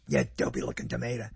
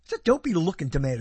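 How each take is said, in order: First: Quick, much lower mock neighbor voice; neighbor's put-down. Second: Said in the usual way. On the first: Recalling the neighbor's insult, low quick mock voice. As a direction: toss it off low and fast like the neighbor. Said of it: "That's how he said it". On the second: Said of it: "It's a tomato that looks dopey".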